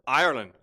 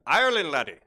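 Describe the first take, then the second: First: Said in the usual way. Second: Playful Irish lilt on the name; mock Irish accent. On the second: Host echoes answer Ireland, in mock Irish accent. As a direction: put on a jokey Irish accent.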